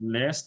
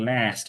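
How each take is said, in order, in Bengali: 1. স্বরধ্বনিটি সংকীর্ণ, চোয়াল প্রায় খোলেনি। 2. স্বরধ্বনিটি খোলা, চোয়াল নিচে নেমে গেছে। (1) "লাস্ট না" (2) "চোয়াল একদম নেমে যাবে"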